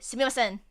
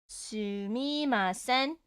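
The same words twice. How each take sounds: First: The word is said very quickly, run together. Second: The word is said at a careful, slower pace.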